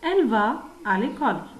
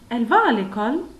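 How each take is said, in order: First: The voice falls at the end. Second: The voice rises at the end. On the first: It is a statement. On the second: It is a question.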